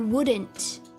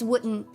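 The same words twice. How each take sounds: First: The D sound in the word is pronounced. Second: The D sound in the word is dropped. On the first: The speaker calls it wrong. "is that how you're supposed to say it? ... That feels so weird" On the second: The speaker calls it right. "We don't need the D"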